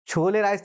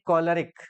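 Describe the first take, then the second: First: It is read as two words, 'chole rice'. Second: It is said as one word, 'kolerik'. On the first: It is read letter by letter, as a local reader would. "छोले राइस तो हम लोग पढ़ेंगे ना UP board वाले" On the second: It is said the way English speakers say it. "अंग्रेजी वाले क्या इसका उच्चारण दिए"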